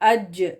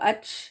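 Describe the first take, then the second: First: It ends in a voiced j sound. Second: It ends in a voiceless ch sound. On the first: The speaker calls it right. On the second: The speaker calls it wrong.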